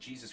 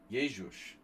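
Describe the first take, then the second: First: The name is pronounced the English way. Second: The name is pronounced the Hungarian way. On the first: "I think I said Jesus Christ" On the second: "Hungarians say Jézus"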